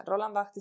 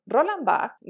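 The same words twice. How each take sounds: First: Said in the usual way. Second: Roland Barthes said high and loud, stressing Roland; name Roland Barthes proudly; emphatic name. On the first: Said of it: "O sea, Roland Barthes". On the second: Shown as a demonstration. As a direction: announce "Roland Barthes" with weight and a falling tune. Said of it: "ni más ni menos".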